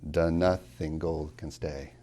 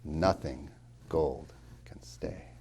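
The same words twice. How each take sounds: First: Slow, with an added "The" before "Nothing"; wrong version. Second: Very slow, "Nothing" stressed first; headless line. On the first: Professor recites the wrong line to the class, slowly. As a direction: say "The nothing gold can stay" to show the full iambic line. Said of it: "It doesn't say". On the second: Professor reads the real line slowly, stress on Nothing. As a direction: hit NOthing, drop the first syllable. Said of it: "You don't have six syllables". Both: Shown as a demonstration.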